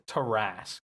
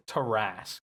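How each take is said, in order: First: The name is said as Tarrasque. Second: The same.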